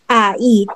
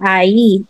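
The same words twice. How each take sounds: First: The two vowels are said as separate sounds. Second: The two vowels are blended into one sound. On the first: The speaker calls it wrong. "spoke it like ai, but hindi siya talaga tama" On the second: The speaker calls it right. "i-combine mo siya"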